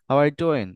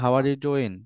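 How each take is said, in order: First: It is said with stress and a clear rhythm. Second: It is said flat, without stress or rhythm. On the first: The speaker calls it right. "রিদমটা হবে" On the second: The speaker calls it wrong. "Intonation নাই, কোনো স্ট্রেসও নাই"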